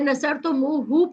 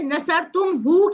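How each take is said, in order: First: An 'u' vowel links 'tum' to 'hu'. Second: The word goes straight from 'tum' to 'hu'. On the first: The speaker calls it right. "वाओ आ गया साथ" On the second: The speaker calls it wrong. "नसर तुम हु के बजाय"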